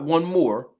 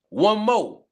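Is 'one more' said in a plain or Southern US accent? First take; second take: plain; Southern. First: It is said in a plain, non-Southern accent. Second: It is said in a Southern accent, like 'mo'. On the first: The speaker calls it wrong. "Not one more" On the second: The speaker calls it right. "when I say mo, I need somebody from down south"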